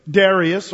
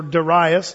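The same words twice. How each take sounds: First: "Darius" as DAIR-ee-us; first pronunciation of Darius. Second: "Darius" as duh-RYE-us; alternative pronunciation of Darius. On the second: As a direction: stress the middle syllable of "Darius", like RYE. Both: Shown as a demonstration. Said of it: "depending on how you want to pronounce his name".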